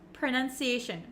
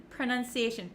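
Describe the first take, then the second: First: The first syllable has a short 'uh' vowel. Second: The first syllable has a short 'uh' vowel.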